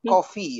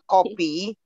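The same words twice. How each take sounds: First: The middle consonant is an F sound. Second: The middle consonant is a P sound. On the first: The speaker calls it right. "Coffee with F" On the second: The speaker calls it wrong. "not with P"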